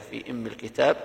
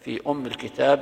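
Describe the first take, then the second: First: The word begins with an 'i' vowel, imm. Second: The word begins with a 'u' vowel, umm. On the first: "وفي قراءة حمزة والكسائي بكسرها" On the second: "بضم الهمزة"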